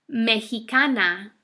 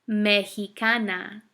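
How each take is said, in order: The two takes are said the same way.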